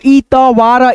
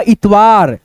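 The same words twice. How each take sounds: First: इतवार broken up as इ-त-वार; separated, drawn-out इ, त, वार in इतवार; split into parts. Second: Said in the usual way. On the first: Shown as a demonstration. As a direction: sound out इतवार slowly, piece by piece. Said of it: "दो भागों में divide करके". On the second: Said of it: "उसके बाद से बोल देते हैं".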